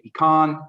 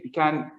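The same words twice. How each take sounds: First: It is said with a Texan pronunciation. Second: It is said with a non-Texan pronunciation.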